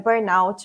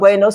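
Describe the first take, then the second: First: The ending is said like English 'out'. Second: The ending is said like a French word. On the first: The speaker calls it right. "como o termo ele vem do inglês, o out, né, então é burnout mesmo" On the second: The speaker calls it wrong. "O burnout seria se fosse um francês"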